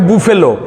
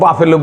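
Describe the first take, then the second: First: The first vowel sounds like 'oo'. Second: The first vowel sounds like 'a'. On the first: This is how someone abroad said it. "একজনে কয় বুফেলো" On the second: This is how we say it at home. "আমরা তো বাফেলো বলি"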